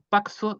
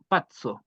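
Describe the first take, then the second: First: The middle consonant is pronounced as 'ks'. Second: The middle consonant is pronounced as 'ts'. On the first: The speaker calls it wrong. "Tampoco es K S, tampoco es una X" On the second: The speaker calls it right. "Que es una T S"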